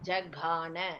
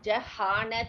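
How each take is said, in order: First: The middle consonant is a voiced g sound. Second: The middle consonant is a breathy h sound. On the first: The speaker calls it right. "கா சொல்லணும், ஹா சொல்லக்கூடாது" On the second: The speaker calls it wrong. "ஜஹான சொல்லக்கூடாது"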